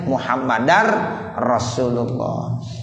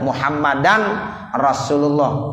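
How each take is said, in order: First: A doubled r is heard before Rasulullah. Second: An n sound is heard before Rasulullah. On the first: The speaker calls it right. "mestinya Muhammadar Rasulullah" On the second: The speaker calls it wrong. "tasdidnya tidak ada"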